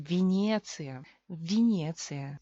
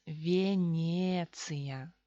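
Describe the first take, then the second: First: Venecia as vi-NYE-tsi-ya, louder on the repeat; Russian Venecia, unstressed ye turned to i; slow, emphatic Venecia starting with vi; reduced first vowel. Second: Venecia very slowly, vye-NYE-tsi-ya; drawn-out syllable-by-syllable Russian Venecia as spelt; official unreduced form. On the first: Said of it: "se convierte en I". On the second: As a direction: stretch Venecia with a full ye in both syllables. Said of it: "Así es oficialmente". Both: Shown as a demonstration.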